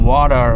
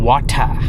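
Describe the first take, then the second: First: American accent, flapped t and strong r. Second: British accent, clear t and no r. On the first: "American இங்கிலீஷ்லலாம் வந்து வாட்டரை வந்து எப்படி சொல்லுவாங்க அப்படின்னா வாடர்" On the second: "British இங்கிலீஷில் எப்படி பேசுவானுங்க"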